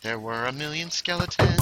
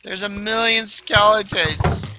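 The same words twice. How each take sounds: First: Raised pitch, less forceful; toned-down repeat. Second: High, loud and drawn out; loud exclamation. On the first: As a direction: climb gradually in pitch without shouting. Repeats line in lesser voice. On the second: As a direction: cry it out slowly in alarm at the horde. Overrun, says line two ways. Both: Real, not acted.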